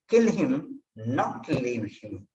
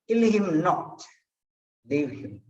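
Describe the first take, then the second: First: There is no pause between 'not' and 'leave'. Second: There is a pause between 'not' and 'leave'. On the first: The man should be killed. "if you do not give the pass between not and uh, leave, then the thing may be different" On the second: The man should not be killed. "between not and leave, I gave a pass"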